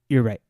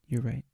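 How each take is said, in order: First: It is said loudly. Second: It is said softly.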